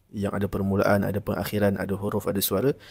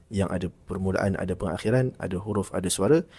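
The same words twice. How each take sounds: No difference in how they are said.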